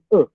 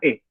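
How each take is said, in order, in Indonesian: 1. Vokalnya adalah schwa Prancis yang dibulatkan dan berada di tengah. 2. Vokalnya adalah e biasa, tidak dibulatkan. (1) "Huruf dasarnya itu"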